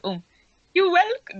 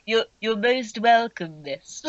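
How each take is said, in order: First: High sweet butler voice; wrong Bulbage voice. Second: Slow, humble goblin butler; bow and say it slowly; Bulbage voice. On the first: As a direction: try a high, polite servant. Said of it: "No, hang on, what was Bulbage's voice?". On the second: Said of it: "I think it was kind of a bl-, there we go". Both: Acted.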